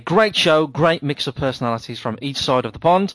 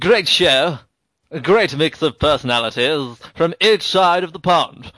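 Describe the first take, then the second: First: It is read in his normal voice. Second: It is read in a put-on British accent.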